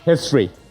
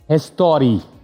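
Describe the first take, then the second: First: It is said in a plain accent. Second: It is said in an Italian-style accent.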